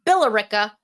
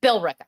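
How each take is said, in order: First: Billerica said as "Bill-AIR-ica"; Billerica stressed on the second syllable; Billerica the outsider way; wrong pronunciation. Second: Billerica said as "Bill-RICK-a"; Billerica squeezed into three syllables; Billerica the local way; correct pronunciation. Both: Shown as a demonstration. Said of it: "Not Billerica".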